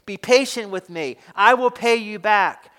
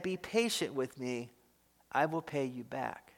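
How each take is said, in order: First: Louder, pressing plea; begging. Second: Much softer, lower, humble plea; begging. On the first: Servant on his knees begging for patience, louder plea. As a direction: beg him out loud, insistent. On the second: Fellow servant on his knees begging for patience, hushed plea. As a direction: plead quietly on your knees. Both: Acted. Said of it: "begged him".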